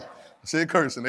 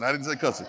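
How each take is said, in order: First: Cursing with an r-coloured ur, slow and clear; cursing, the right word, slowly set apart from cussing. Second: Cussing with a short u sound, as in cuss; cussing, the wrong word, said plainly. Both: Shown as a demonstration.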